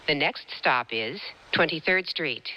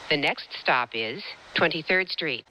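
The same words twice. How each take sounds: The two takes are said the same way.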